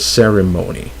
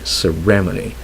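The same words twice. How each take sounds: First: The stress is on the first syllable. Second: The stress is on the second syllable. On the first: The speaker calls it right. "When it's supposed to be on the first" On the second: The speaker calls it wrong. "We put the stress usually on the second, on the R E"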